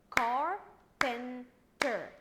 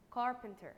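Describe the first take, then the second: First: "Carpenter" in three loud, slow, separate beats; split into syllables. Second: Said in the usual way. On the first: Shown as a demonstration. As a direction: chop "Carpenter" into three drawn-out, loud pieces. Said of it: "divide it into three". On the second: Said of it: "I'm going to divide it".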